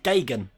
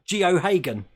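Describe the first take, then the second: First: The surname is said short, as two quick syllables. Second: The surname is said long, sounding out every letter. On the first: The speaker calls it right. "apparently it's pronounced Gagan" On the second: The speaker calls it wrong. "I kept pronouncing it Geohagen"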